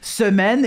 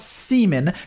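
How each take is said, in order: First: It is said with a French pronunciation. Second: It sounds like the English word seaman. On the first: The speaker calls it right. "Semaine is French for week" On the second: The speaker calls it wrong. "It's not Seaman"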